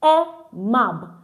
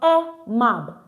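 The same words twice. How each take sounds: No difference in how they are said.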